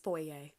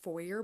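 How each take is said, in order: First: The word has the Canadian pronunciation. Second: The word has a non-Canadian pronunciation. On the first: The speaker calls it right. "but this is foyer" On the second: The speaker calls it wrong. "I think I have heard foyer before, and that's just wrong"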